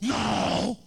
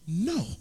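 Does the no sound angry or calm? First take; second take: angry; calm. First: It is said angrily. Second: It is said calmly.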